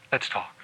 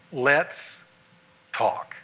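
First: Near-whispered repeat, low and soft; softer echo. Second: Much softer and lower, slow; soft weighty words. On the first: Preacher repeating the phrase to the men, barely audible. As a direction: let it fall away. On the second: Preacher giving husbands the two key words, softly. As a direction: lay the two words down gently. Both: Shown as a demonstration. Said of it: "knows the value of two words".

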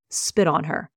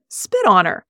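First: Said in the usual way. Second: "Spit on her" louder and sharper, stressing Spit; firm repeated order. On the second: A narrator's reading. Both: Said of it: "You heard me".

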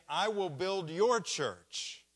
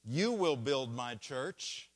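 First: "your" punched high, the phrase slow and loud; wrong version, weight on "your"; stress on your. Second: "You" punched, the phrase slow and louder; wrong version, weight on "You"; stress on you. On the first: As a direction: hit "your" hard and falling. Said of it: "And he didn't say". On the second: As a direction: hit "You" hard and rising. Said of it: "He didn't say". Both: Shown as a demonstration.

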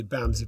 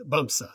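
First: Bamsi, ending in an ee sound; mistaken pronunciation. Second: Bumsa, ending in an uh sound; correct pronunciation. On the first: Host guessing at the dog's name, mispronounced as Bamsi. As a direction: say Bamsi with a final "ee". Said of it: "but that's not right". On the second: Host correcting the dog's name, pronounced Bumsa with final uh. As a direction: say Bumsa as BUM-suh. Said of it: "It's pronounced Bumsa". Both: Shown as a demonstration.

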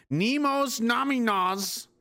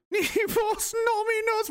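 First: "Nemos Nominos" drawn out slowly, higher; reading a chat line. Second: "Nemos Nominos" much higher and slow, questioning; mock incredulous. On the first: Retold or imitated. Streamer reading a viewer's message, slow. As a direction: read the odd phrase slowly. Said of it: "Jake Powell says". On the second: Shown as a demonstration. Streamer mocking a viewer's phrase, high and baffled. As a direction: repeat it baffled.

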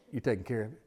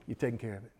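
No difference in how they are said.

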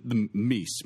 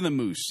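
First: Meese said slowly as a jokey plural of moose; joke plural. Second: Said in the usual way. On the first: Shown as a demonstration. Host groping for the plural of moose, slowly. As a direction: stretch out meese as if it were a real word. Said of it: "moosin, moxen, whatever they are". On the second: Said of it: "e-, even the meese, moosin, moxen".

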